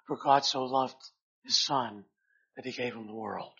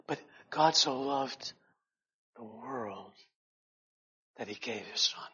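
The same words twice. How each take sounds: First: Said in the usual way. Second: Hushed correction. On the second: Shown as a demonstration. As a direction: breathe out the true verse gently, in awe. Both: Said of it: "we would think ... that it would read".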